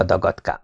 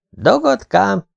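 First: Mocking nickname. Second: Indignant high-pitched echo of the insult; offended echo. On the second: Acted. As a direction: throw the nickname back, hurt and high. (sértődött, magas visszakérdezés)

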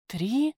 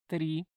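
First: Louder, rising incredulous question; surprised echo question. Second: Said in the usual way. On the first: Acted. Prisoner cannot believe how few days have passed, surprised. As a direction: echo it back in disbelief.

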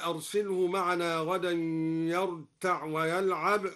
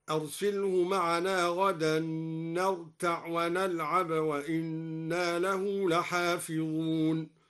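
First: Said in the usual way. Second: نرتع and ونلعب recited with ن, slow and measured; recited with nun. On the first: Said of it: "هكذا". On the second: Shown as a demonstration. Teacher recites al-Duri's nun reading, slow chant. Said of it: "بنون الجمع في الفعلين هكذا".

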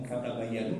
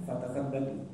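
First: "fatabayyanu" said clearly as fa-ta-bay-ya-nu with a y sound; "fatabayyanu" spelled out syllable by syllable; Umar's reading. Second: "fatathabbatu" said with th and a doubled b: fa-tath-ab-ba-tu; "fatathabbatu" voiced carefully, syllable by syllable; Hisham's reading. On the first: Preacher demonstrating Umar's reading to the audience, careful pronunciation. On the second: Preacher showing Hisham's variant reading to the congregation, careful pronunciation. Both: Shown as a demonstration. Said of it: "beda tipis itu tetap beda".

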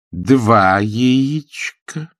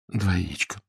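First: «Два» stressed, slow and louder; firm correction. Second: «Два яичка» echoed softly and meekly; meek repetition. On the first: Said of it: "поправила его мисс Вилкис". (твёрдая медленная поправка с ударением на «Два») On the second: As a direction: repeat it quietly, defeated. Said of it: "повторил Фредерик". (покорно и тихо повторяет) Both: A narrator's reading.

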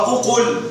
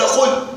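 First: "أقل" as u-qul, short final u; intermediate form. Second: "قل" as one short qul, higher; final short form. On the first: Teacher giving the step after dropping waw, short vowel. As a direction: say "أقل" with an opening u and no w. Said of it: "فحذفت الواو فصار". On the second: Teacher giving the final imperative without hamza, short syllable. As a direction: say "قل" with no opening vowel. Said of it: "فلم يعد هناك حاجة لهمزة الوصل". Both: Shown as a demonstration.

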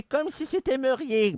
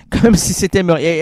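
First: Ghost voice. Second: Said in the usual way. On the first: Acted. Spirit line, high and soft.

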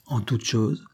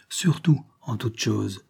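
First: Said in the usual way. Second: Surtout drawn out and stressed, slowly; insisting on her freedom, slow and pointed; slow, deliberate emphasis. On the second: Acted. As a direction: lean hard on surtout, then en toute chose slowly.

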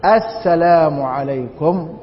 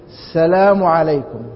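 First: Slow السلام عليكم with the article clearly voiced; correct careful salam. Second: السلام said as "slam", leaning on the s and dropping the alif-lam. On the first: A teacher modelling the correct prayer salam, slow and careful. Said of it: "لكن الصواب أن يقول". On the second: A teacher mimicking people who get the salam wrong, leaning on the s. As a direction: hit the s of السلام and drop the article. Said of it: "يتكي على السين". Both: Shown as a demonstration.

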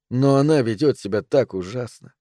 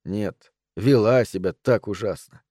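First: Said in the usual way. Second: Slow, corrective stress on вела; вела drawn out, falling to the end. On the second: A narrator's reading. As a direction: correct yourself, leaning slowly on вела. Correcting the tense of her thought.

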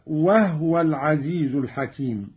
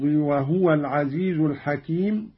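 First: "وهو" as "wah-wa", no vowel on the h; silent-vowel ha. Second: Said in the usual way. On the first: Shown as a demonstration. Teacher demonstrating Qalun's reading, "وهو" said wah-wa. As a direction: close the first syllable of "وهو" on h. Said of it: "بإسكان الهاء، هكذا". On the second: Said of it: "قرأ قالون بإسكان الهاء".

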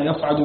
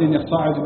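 First: يصعد as "yas'adu", single vowelless s, short a; sukun on sad. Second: يصعد as "yassaa'adu", double s then long a; doubled sad, alif. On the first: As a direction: keep يصعد light, no doubling or long vowel. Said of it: "بإسكان الصاد مخففا من غير ألف". (يصْعَد بإسكان الصاد مخففا) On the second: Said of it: "بتشديد الصاد وألف بعدها". (يصّاعد بتشديد الصاد وألف) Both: Shown as a demonstration.

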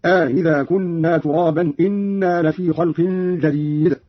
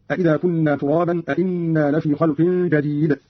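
First: أإذا said "aa-idha" with a softened second hamza; slow recitation, long opening on أإذا, single hamza on إنا; lengthened, softened hamza. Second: Said in the usual way. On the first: Shown as a demonstration. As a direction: draw out the first a of أإذا, then plain "inna" for إنا. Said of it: "مع إدخال ألف في الأول بين الهمزتين". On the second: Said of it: "قرأ قالون بالاستفهام في الأول والإخبار في الثاني".

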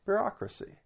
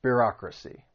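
First: "Bureaucracy" lifted high on "reau", then dropped soft; stress on second syllable. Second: Bureaucracy with the weight on "reau"; stress on second syllable. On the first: Teacher repeating the word for learners, stress on "reau". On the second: Teacher modeling the word for learners, stress on "reau". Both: Shown as a demonstration. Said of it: "the stress is on that second syllable".

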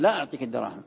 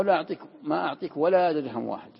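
First: Said in the usual way. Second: A loud refusal with every word pressed, لا hit hard; emphatic refusal. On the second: Shown as a demonstration. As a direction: refuse outright, no room to argue. (رفض قاطع بصوت عالٍ) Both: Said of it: "الثاني أقوى".

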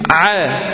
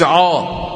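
First: عا thin and fronted, "ʕæ"; light ayn. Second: عا thick and backed, "ʕaw"; wrong heavy ayn. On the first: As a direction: demonstrate عا without heaviness. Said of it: "مرققة". (عا مرققة) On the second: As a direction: show the faulty heavy عا. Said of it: "ما قلتش". (عا مفخمة خطأً) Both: Shown as a demonstration.

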